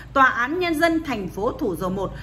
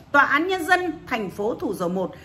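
The two takes are said the same way.

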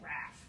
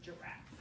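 First: The first syllable is left out. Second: The first syllable is pronounced. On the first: "I'm just going to say raff instead of giraffe" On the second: "instead of giraffe"

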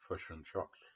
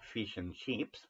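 First: The vowel in chips is centralised and muffled. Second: The vowel in chips is a clear short i. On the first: "but fish and chops" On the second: "like we say"

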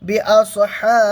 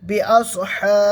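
The two takes are said the same way.

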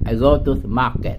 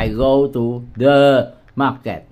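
First: The word 'the' is said lightly and quickly. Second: The word 'the' is said fully and clearly. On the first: The speaker calls it right. "Cái này giống như là lướt qua thôi" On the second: The speaker calls it wrong. "Chứ không cần phải đọc là"

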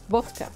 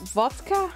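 First: It begins with a w sound and a hard k. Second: It begins with a v sound and a softer k. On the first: This is how Dutch speakers say it. "We say vodka. Vodka. Nice hard K" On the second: This is how English speakers say it. "I think you guys say?"

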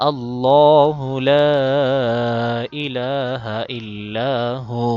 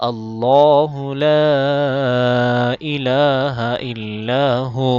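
No difference in how they are said.

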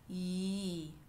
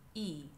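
First: The vowel starts with a smooth y glide. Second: The vowel starts with a sharp glottal stop. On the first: "Sometimes we start with a glide" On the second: "sometimes we start it with a glottal stop"

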